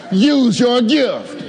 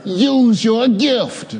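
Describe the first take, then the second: First: "Use your gift" slow, every word weighted, USE hit hardest; with emphasis. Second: Said in the usual way. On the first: Shown as a demonstration. Preacher to congregation, repeat it with emphasis. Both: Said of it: "Say it with emphasis".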